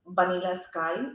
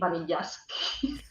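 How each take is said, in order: First: The title is pronounced in the normal way. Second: The title is pronounced in a deliberately distorted way. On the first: The speaker calls it right. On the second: The speaker calls it wrong.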